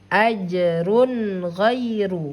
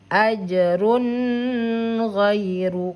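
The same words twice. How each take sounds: First: The n is short and clear, not held. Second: The n is held long with a nasal hum. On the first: The speaker calls it right. "harus dibaca dengan bacaan yang jelas bunyi suara n-nya" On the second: The speaker calls it wrong. "maka salah bacaannya jika kalau ditahan"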